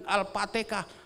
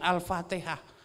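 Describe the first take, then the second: First: The word is said with a Javanese accent. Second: The word is said with standard Arabic sounds. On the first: "lidahnya beliau itu lidah Jawa" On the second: "bukan Al-Fatihah"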